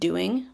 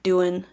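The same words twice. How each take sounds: First: The final g sound is fully pronounced. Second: The final g sound is left out. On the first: The speaker calls it right. "instead of doing" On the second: The speaker calls it wrong. "take out sounds, omissions, shortening words like doing"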